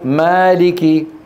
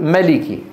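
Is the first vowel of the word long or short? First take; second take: long; short. First: The first vowel is long. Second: The first vowel is short. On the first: The speaker calls it right. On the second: The speaker calls it wrong.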